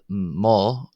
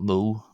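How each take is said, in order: First: The word ends in an 'ah' vowel. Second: The word ends in an 'oh' vowel. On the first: The speaker calls it right. "Ma, not Mo, but Ma" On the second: The speaker calls it wrong. "not Mo"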